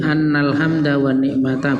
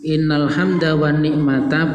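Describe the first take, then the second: First: The first word begins with an 'a' vowel. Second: The first word begins with an 'i' vowel. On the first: "boleh dibaca anna" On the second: "boleh dibaca inna"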